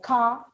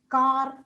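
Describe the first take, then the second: First: The r at the end is silent. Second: The r at the end is pronounced. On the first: The speaker calls it right. "not pronounced in English, like car" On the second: The speaker calls it wrong. "they tend to pronounce as car"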